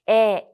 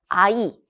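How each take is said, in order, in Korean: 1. 이 모음은 하나의 안정된 소리예요. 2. 이 모음은 두 소리로 미끄러져요. a, 그다음 i. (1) "현대국어는 에, 에 이렇게 발음을 하죠" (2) "중세국어의 경우에는 아이, 어이로 읽는다"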